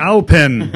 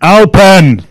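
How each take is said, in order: First: Calling out. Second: Loud, high shouted place name; shouted command. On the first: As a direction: call out the place name. Calling the place name into VR. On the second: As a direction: bellow it at an unresponsive device. Repeats the voice command much louder. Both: Real, not acted.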